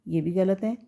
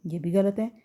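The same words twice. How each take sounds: The two takes are said the same way.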